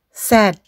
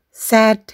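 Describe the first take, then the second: Both takes have the same delivery.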